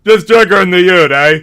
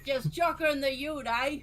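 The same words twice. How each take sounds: First: Loud, high ocker twang; shouted Aussie bogan accent; Bogan Australian. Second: High, loud Aussie bogan; Bogan Australian. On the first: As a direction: belt it like a bloke in the Outback. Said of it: "okay, the title is". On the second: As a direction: echo it in a broad Aussie accent. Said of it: "full-on Outback style". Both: Pretend.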